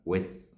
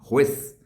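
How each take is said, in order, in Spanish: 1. La palabra empieza sin su j. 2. La palabra empieza con su j fuerte. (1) "si usted le quita ... la J" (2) "ya no le va a sonar como así"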